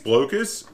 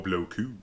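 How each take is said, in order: First: The name is said with a plain English pronunciation. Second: The name is said with a French pronunciation. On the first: "I think it's Blocus" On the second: "claim it's a French pronunciation"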